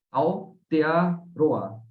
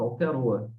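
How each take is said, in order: First: "Aotearoa" drawn out very slowly, in separate parts; slow syllable-by-syllable. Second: Said in the usual way. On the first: Shown as a demonstration. Teacher showing listeners the Māori country name, slow syllable-by-syllable.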